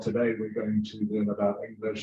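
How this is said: It is said in a flat, boring voice.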